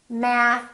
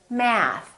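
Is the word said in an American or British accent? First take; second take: American; American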